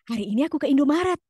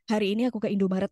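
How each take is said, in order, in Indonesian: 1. Suaranya kuat, hidup, dan penuh energi. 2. Suaranya datar, lemah, dan mengantuk. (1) "Enggak, tapi" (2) "yang lempeng, yang lemes, yang kayak baru bangun tidur"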